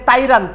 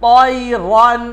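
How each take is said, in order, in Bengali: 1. প্রথম ব্যঞ্জনটি হালকা, সাধারণ t। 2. প্রথম ব্যঞ্জনটি ভারী, এমফ্যাটিক t। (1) "তাইরান হবে না" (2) "হবে ত"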